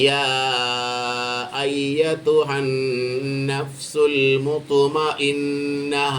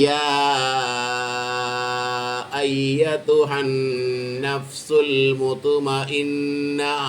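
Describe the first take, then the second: No difference in how they are said.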